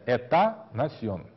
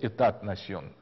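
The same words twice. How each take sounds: First: No 't' sound is heard after 'éta'. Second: A 't' sound is heard after 'éta'. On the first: The speaker calls it right. "последнее «т» не читается" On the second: The speaker calls it wrong. "на экзаменах многие говорят"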